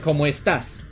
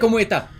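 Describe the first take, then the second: First: The final s sound is clearly pronounced. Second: The final s sound is dropped. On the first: "the standard thing is like" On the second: "I don't say the S's normally. I say, ... that's a Chilean accent"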